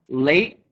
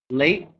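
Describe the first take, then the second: No difference in how they are said.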